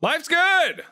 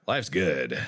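First: Bright high chirp. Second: Low ominous. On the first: Real, not acted. Cheerful high answer. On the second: Pretend. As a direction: go dark and threatening.

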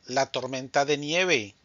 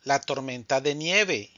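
The two takes are said the same way.

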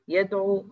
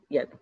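First: يدعو with a long final oo; full final vowel. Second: يدعو cut to a short final u; shortened final vowel. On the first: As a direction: hold the last vowel of يدعو. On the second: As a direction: trim the oo of يدعو to a brief damma. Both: Shown as a demonstration. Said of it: "إحنا حذفنا حرف العلة".

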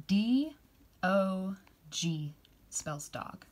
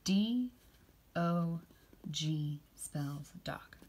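First: Slow, drawn-out spelling. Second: Slow, softer repeat of G spells dog; slow, soft spelling. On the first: Teacher modelling dog, slowly. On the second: Teacher repeating dog with the kids, slowly and softly. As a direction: echo the spelling slowly and gently. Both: Shown as a demonstration. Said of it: "Can you say that with me".

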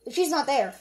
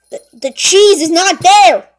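First: Said in the usual way. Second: Stammer, then shout it out; very loud, dismayed outburst; alarmed shout. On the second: Acted. Cook discovering the cheese is gone, shouting in alarm.

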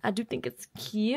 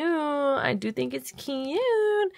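First: Said in the usual way. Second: High, slow, stretched-out cute; slow sing-song cute; drawn-out cutesy. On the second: Shown as a demonstration. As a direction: coo it slowly like a baby voice. Repeats line slow and high.

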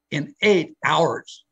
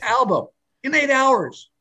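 First: EIGHT HOURS drawn out slowly; slow emphasis. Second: "eight hours" pitched very high and stretched; amazed emphasis. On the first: Telling guests how fast the album was made, slow emphasis. Marvels at album's recording speed. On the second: Repeating the album feat to amazed guests, high drawn-out emphasis. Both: Real, not acted.

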